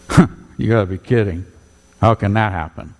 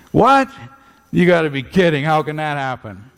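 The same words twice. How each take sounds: First: Mocking. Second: High mocking squeal of disbelief on What. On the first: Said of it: "he was mocking and saying". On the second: Nicodemus scoffing at Jesus, high mocking disbelief. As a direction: scoff as if it's absurd. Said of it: "was not being very respectful".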